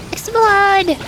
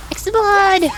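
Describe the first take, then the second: No difference in how they are said.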